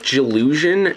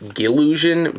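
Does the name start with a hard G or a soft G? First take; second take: soft G; hard G. First: The name starts with a soft G, like giraffe. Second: The name starts with a hard G, like go. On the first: The speaker calls it right. "is pronounced with that kind of G sound" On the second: The speaker calls it wrong. "and not Gillusion"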